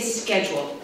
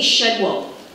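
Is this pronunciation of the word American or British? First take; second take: American; British. First: It is said with an American pronunciation. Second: It is said with a British pronunciation. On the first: "I say schedule" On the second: "I don't say schedule"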